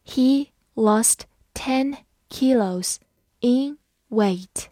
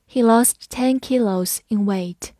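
First: Slow, each word on its own; unhurried teacher's model with clear gaps; slow read-through. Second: Said in the usual way. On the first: Shown as a demonstration. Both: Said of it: "好，慢慢来读".

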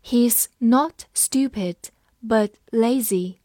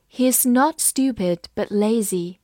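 First: He's not stupid, but lazy said slowly; slow reading. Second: Said in the usual way. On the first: Shown as a demonstration. Teacher slowly reading the sentence aloud. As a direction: read it slowly, word by word. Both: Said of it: "我们慢读一遍".

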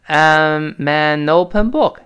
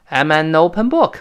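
First: I'm an open book said very slowly, linked; slow linking demo. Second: Said in the usual way. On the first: Shown as a demonstration. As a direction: drag it out, linking every sound. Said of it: "注意，“I am” 还是变成". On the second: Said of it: "注意".

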